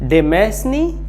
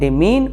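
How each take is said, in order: First: It is said in three syllables ending in 'nee'. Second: It is said in two syllables ending in 'meen'. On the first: The speaker calls it wrong. "नहीं" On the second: The speaker calls it right. "बल्कि डिमीन"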